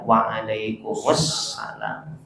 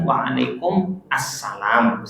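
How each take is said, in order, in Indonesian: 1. Kata-katanya disambung menjadi satu kata. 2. Kata-katanya diucapkan terpisah, tidak disambung.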